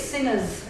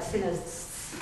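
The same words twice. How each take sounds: First: Said in the usual way. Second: "sinners" slowed, final S stretched long; drawn-out S. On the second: Shown as a demonstration. Investigator showing listeners the taped word, "sinners" with a drawn-out final S. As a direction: hold the last S of "sinners" in a long hiss. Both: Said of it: "with the S drawn out at the end".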